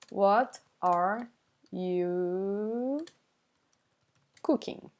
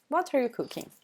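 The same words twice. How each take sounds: First: Slow, drawn-out words with pauses. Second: Said in the usual way. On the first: Shown as a demonstration. Teacher giving the meaning, slowly word by word. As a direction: stretch out YOU and pause around it.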